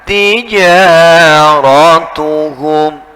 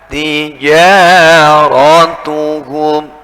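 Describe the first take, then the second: The two takes are said the same way.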